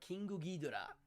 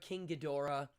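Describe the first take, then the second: First: It is said with a Japanese pronunciation. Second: It is said with an English pronunciation.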